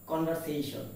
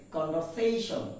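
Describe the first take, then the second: First: Conversation with a fuller VER; common mispronunciation. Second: Conversation with a light, weak VER; correct pronunciation. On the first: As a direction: say conversation the commonly mistaken way, "kon-var-se-shon". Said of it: "not conversation". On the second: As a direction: say conversation as "kon-ver-SAY-shun". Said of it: "It is conversation". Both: Shown as a demonstration.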